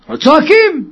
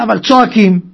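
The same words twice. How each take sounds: First: צועקים said higher and pressed; emphatic repeat. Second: Said in the usual way. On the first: Shown as a demonstration. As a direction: lean hard on צועקים on the repeat. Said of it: "repeated with emphasis". (הדגשה על צועקים)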